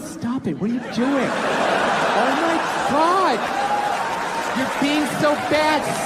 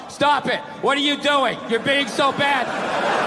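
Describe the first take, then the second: First: It is said in a teasing, flirtatious way. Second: It is read out in a dull, flat way.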